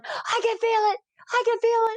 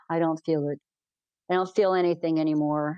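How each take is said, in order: First: Very high-pitched elated cries; excited mock exclamation. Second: Low-pitched, understated complaint; mildly downcast quote. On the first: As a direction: imitate his amazed delight, way up high. Retells blind man's elated cries. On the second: Retold or imitated. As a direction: quote his letdown in a lower voice. Retells blind man's dejected complaint.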